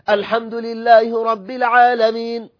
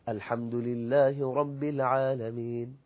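First: The phrase is read in a loud, raised voice. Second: The phrase is read in a soft, low voice. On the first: The speaker calls it wrong. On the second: The speaker calls it right.

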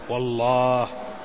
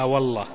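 First: The middle vowel is long, the alif pronounced. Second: The middle vowel is short, the alif dropped. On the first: The speaker calls it right. "والأولى أن ينطق به على أجمل الوجوه" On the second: The speaker calls it wrong. "وبعض العامة يقول لا والله فيحذف الألف"

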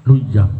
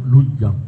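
No difference in how they are said.

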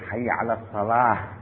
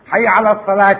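First: The last word ends with a stopped h sound. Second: The last word ends with a pronounced t sound. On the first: The speaker calls it right. "التاء المربوطة لما تقف عليها تبدل بها" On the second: The speaker calls it wrong. "ما يقول حي على الصلاة"

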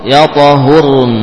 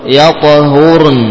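The two takes are said the same way.

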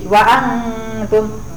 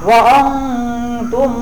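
First: The vowel is thin, with spread lips. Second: The vowel is heavy, with rounded lips. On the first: The speaker calls it right. "Jadi lebarkan bibirnya tipis" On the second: The speaker calls it wrong.

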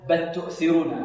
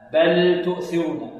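First: The L merges into the following T sound. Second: The L is pronounced clearly before the T. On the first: The speaker calls it wrong. "لا يلغم اللام في التاء، لا يقول بل تؤثرون، لا" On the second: The speaker calls it right. "يظهر اللام عند التاء، فلا بد من إلغائها هكذا"

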